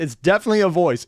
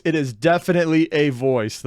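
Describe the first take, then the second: First: Said in the usual way. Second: Slow, deliberate stress on "definitely"; measured emphasis, "definitely" drawn out; emphatic repeat. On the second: Real, not acted. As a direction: spell out each word, leaning on "definitely".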